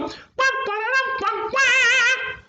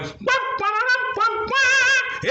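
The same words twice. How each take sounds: First: High, slow sung wah wah of a horn; trumpet imitation. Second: High sung wah wah, louder at the end; trumpet imitation. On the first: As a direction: blow it like a brass horn. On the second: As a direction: blast it like a royal horn. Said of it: "And he went".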